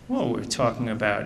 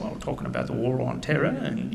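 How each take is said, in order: First: Said in the usual way. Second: Put-on a touch of a British accent; light British accent. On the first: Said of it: "he was saying". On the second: Retelling the British contractor's words in a lightly imitated British accent. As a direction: quote the British contractor in his own accent. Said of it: "of course, he was saying".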